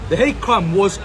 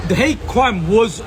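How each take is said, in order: Both takes have the same delivery.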